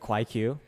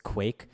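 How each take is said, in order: First: The final Q is said as its own syllable. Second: The Q blends into one single syllable. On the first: The speaker calls it wrong. "I called it the Kwai Q, which is just like not how it's pronounced" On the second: The speaker calls it right. "It's Quake"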